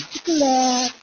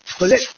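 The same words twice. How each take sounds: First: It is said in a soft, sweet Ilonggo accent. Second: It is said with an Ilocano accent, rhyming with date. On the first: "siyempre may lambing yun" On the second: "Abra, ang alam ko parang date"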